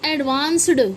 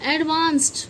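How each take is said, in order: First: The ending is pronounced as a d sound. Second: The ending is pronounced as a t sound. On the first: The speaker calls it wrong. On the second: The speaker calls it right.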